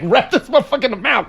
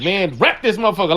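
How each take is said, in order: First: Light woman's-voice impression; imitating her. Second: Said in the usual way. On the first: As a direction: mimic her, a bit higher. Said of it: "'cause that's how she was talking".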